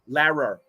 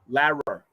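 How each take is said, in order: First: The middle consonant sounds like an R. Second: The middle consonant sounds like an R.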